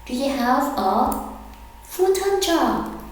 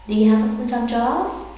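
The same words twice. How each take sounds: First: Slow, broken into two parts, full-time rising high; slow, split model. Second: Quick, running the words together; fast everyday question; fast natural speed. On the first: Teacher slowly modelling the question for students. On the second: Teacher then saying the question fast and natural. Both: Shown as a demonstration. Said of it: "Sentence ten".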